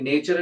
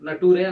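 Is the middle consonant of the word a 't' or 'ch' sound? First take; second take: ch; t. First: It has a 'ch' sound and ends in 'er'. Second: It is read letter by letter, ending in 'ray'. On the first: It follows what we have heard. "మనకి నేచర్ అని తెలిసిపోతుంది" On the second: It follows the spelling. "నటూరే అనాలా"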